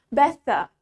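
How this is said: A clear T in the middle, faint R. "the word better in British, T-nya tetap diucapkan sebagai T"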